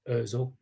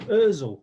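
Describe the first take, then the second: First: The name is said in a calm, flat voice. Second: The name is said in a loud, excited voice. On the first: The player makes a simple sideways pass. "if he's passing a ball just square" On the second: The player makes a thrilling pass over the defence. "if it's an exciting pass over the top, oh"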